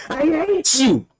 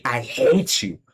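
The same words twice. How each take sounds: First: "I hate you" much higher, hate held and falling; furious cry. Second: Said in the usual way. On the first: Real, not acted. Telling his tormentors he hates them, much higher in rage. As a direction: throw it out high in real rage. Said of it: "fuck, I'm angry". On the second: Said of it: "I'm, like, heated, clearly".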